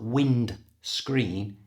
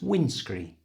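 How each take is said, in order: First: The D sound is clearly pronounced. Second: The D sound is left out. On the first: The speaker calls it wrong. "It's not wind screen" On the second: The speaker calls it right. "don't pronounce the D"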